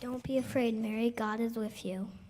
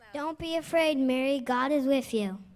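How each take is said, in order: First: It is said at a quieter volume. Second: It is said at a louder volume.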